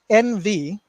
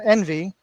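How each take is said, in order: First: Said as two separate letter names. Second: Said as a single two-syllable word. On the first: The speaker calls it right. "it's the letters N V" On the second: The speaker calls it wrong. "not envy, like as envious"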